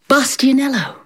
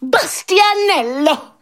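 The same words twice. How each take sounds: First: The name is said calmly. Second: The name is said excitedly, with a gasp.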